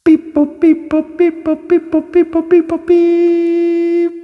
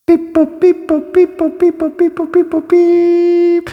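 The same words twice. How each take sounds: First: Very high robotic beep boop chant. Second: Very high robotic beep boop chant, slowing at end. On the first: Robot sound transition. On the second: Second take of transition. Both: Acted. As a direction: chirp like a little robot.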